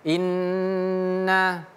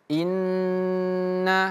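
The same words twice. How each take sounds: The two takes are said the same way.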